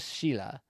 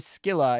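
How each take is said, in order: First: The name starts with a soft sh sound. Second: The name starts with a hard K sound. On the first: "you couldn't do a K, you'd have to go Sheila" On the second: "trying to say Skilla"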